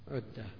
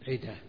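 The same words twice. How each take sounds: First: The word starts with a 'u' vowel. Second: The word starts with an 'i' vowel. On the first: It means something prepared. "بعضهم ينطقها عدة" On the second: It means a promise. "عدة من الوعد"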